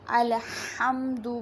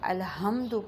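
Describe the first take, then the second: First: The h is a harsh sound from the throat. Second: The h is a soft, plain breathy sound. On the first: The speaker calls it right. "हा जो है वो वस्ते हलक से अदा होती है" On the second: The speaker calls it wrong. "हा की बजाय हा पढ़ दिया जाए"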